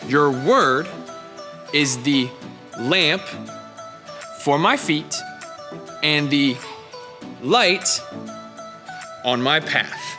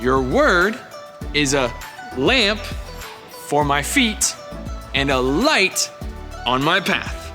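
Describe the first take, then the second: First: It is said at a normal pace. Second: It is said a bit faster.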